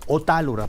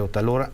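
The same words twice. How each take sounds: First: The stress is on the second syllable. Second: The stress is not on the second syllable. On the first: The speaker calls it right. "tiene acento, es Otálora" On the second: The speaker calls it wrong. "Erróneamente"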